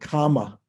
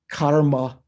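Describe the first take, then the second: First: No r sound is heard before the m. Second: An r sound is heard before the m. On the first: This is the simplified spoken Pali form. "it was said kama" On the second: This is the classical Sanskrit form. "as we say in Sanskrit"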